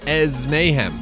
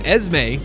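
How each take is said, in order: First: The name is said as three syllables. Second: The name is said as two syllables. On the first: "but it's Ez Mayhem" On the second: "Esme makes sense"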